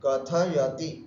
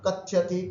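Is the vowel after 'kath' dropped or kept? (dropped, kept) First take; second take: kept; dropped. First: The vowel after 'kath' is kept. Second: The vowel after 'kath' is dropped. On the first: The speaker calls it right. "इस तरह से उच्चारण करना" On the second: The speaker calls it wrong. "कथ्यत नहीं बोलना"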